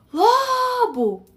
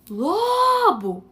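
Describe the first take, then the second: First: A higher, louder repeated call toward the house; calling out loudly. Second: Calling out loudly. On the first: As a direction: yell the name again from the gate, more insistent. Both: Retold or imitated. Delivery man calling at the gate.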